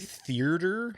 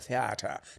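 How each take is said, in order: First: The word has an extra R sound. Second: The word has no extra R sound. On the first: The speaker calls it wrong. "I add another R to it for some reason" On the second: The speaker calls it right. "now I just go theater to make sure I don't"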